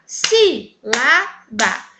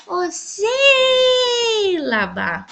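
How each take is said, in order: First: "sílaba" split slowly into SÍ, LA, BA; syllable by syllable. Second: "sílaba" called out with a very long first SÍ; stress on SÍ. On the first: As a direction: say "sílaba" in three separate, firm beats. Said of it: "Então, vamos lá". ("sílaba" separado devagar, sílaba por sílaba: SÍ, LA, BA) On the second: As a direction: sing out "sílaba", holding the SÍ. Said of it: "A sílaba mais forte". ("sílaba" chamado com o SÍ bem alongado) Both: Shown as a demonstration.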